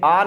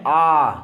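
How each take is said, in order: First: आ said briefly as the rejected sound; not this आ. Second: आ held long and lower; the intended आ. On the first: Teacher ruling out a sound for O, आ said briefly. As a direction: say आ in passing, not held. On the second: Teacher correcting the sound for O, आ held long and low. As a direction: draw आ out as the model sound. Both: Shown as a demonstration. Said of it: "ये आ नहीं है".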